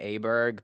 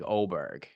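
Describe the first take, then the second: First: The name starts with an A vowel sound. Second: The name starts with an O vowel sound. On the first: It is read the English way. "because that's just how we read it in English" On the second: It follows the player's own preference. "got an O sound"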